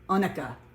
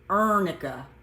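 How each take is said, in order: First: The first syllable has no R sound. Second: The first syllable has an R sound.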